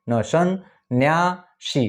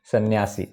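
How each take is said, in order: First: न, सन, न्यासी drawn out very slowly and higher; slow syllable split. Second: Said in the usual way. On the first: Shown as a demonstration. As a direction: pull सन्यासी apart syllable by syllable. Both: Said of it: "जैसे मैंने बोला".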